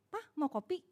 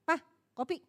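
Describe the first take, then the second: First: Soft, gentle offer of coffee; lembut menawarkan. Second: Short, offhand coffee call; singkat seadanya. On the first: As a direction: ask it softly, with a little care. (menawarkan kopi dengan lembut) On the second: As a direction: toss it out briefly, no softness. (menawarkan kopi seadanya) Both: Shown as a demonstration. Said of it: "Apa gini".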